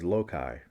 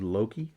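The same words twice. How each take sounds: First: The name does not rhyme with hokey. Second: The name rhymes with hokey. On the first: It sounds more menacing. "When I was a kid, I pronounced it as Loki" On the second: It sounds ridiculous. "Loki sounded hokey. Loki sounded jokey"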